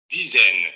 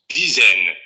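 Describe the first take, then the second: No difference in how they are said.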